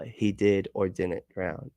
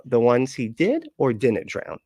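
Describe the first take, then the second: First: Said in the usual way. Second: Slow, with "did" lifted and "drown" falling; deliberate either-or tune on "did or didn't drown"; perfect inflection. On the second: Shown as a demonstration. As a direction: weigh "did" against "didn't", unhurried. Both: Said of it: "Perfectly inflected".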